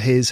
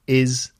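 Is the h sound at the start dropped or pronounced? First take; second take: pronounced; dropped. First: The h at the start is pronounced. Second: The h at the start is dropped.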